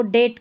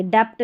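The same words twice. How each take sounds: First: Silent B in डेट; correct pronunciation. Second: Extra stop before T in डेप्ट; wrong pronunciation. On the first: Teacher showing the reading of debt, डेट without B. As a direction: say डेट as "det", no B. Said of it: "डेट करके पढ़ेंगे". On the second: Teacher showing the error, डेप्ट with B sounded. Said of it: "डेप्ट नहीं पढ़ते". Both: Shown as a demonstration.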